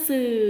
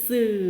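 No difference in how they are said.

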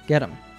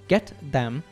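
First: The T is flapped and 'them' is reduced. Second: Both words are pronounced fully and clearly. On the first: "we hear get them" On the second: "instead of saying a full get them"

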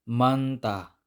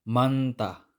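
No difference in how they are said.

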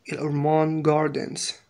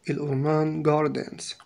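Both takes have the same delivery.

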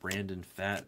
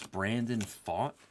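First: The surname has the vowel of 'cat'. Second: The surname has the vowel of 'caught'. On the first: The speaker calls it wrong. "He doesn't pronounce it Fat?" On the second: The speaker calls it right. "It's Brandon Fought?"

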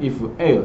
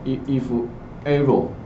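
First: The part after 'if' sounds like 'L'. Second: The part after 'if' sounds like 'error'. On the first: The speaker calls it right. "应该是if l 才对" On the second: The speaker calls it wrong. "很常发音错误啊"

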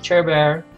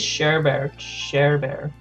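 First: The name begins with a ch sound. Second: The name begins with a sh sound. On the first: The speaker calls it wrong. "That's how I've been pronouncing it" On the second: The speaker calls it right. "but I think it's Share Bear"

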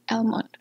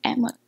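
First: The l sound is clearly pronounced. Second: The l sound is not pronounced. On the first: The speaker calls it wrong. "নট" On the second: The speaker calls it right. "এল word লেটারটা উচ্চ থাকবে"

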